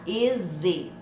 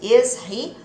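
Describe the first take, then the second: First: The h sound of 'he' is dropped. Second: The h sound of 'he' is pronounced. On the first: "o som do H vai sumir" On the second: "ao invés de is he"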